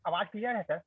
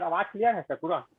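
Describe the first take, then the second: First: Faint, tentative check of the line; too quiet. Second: Raised to normal speaking volume; mic check, a bit firmer in volume; slightly louder. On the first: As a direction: ask softly if you can be heard. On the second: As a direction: speak up a little to be heard. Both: Real, not acted. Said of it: "थोड़ा जोर से बोलिए".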